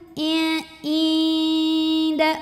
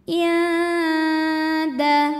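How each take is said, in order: First: The first vowel is drawn out long. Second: The first vowel is short; the nasal hum lasts. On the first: The speaker calls it wrong. "jangan sampai ainnya yang dipanjangin. Inda, bukan" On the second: The speaker calls it right. "Ainnya tetap pendek, yang lama adalah suara dengungannya"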